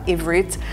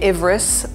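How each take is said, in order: First: The word ends with a t sound. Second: The word ends with an s sound. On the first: This is how it is said in Israel.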